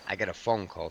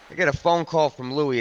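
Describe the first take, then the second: First: Said in the usual way. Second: "I get a phone call" said again higher and harder for weight; emphatic repeat. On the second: Shown as a demonstration. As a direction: hit the repeat harder, building tension. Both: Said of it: "repeats the phrase, then stresses it".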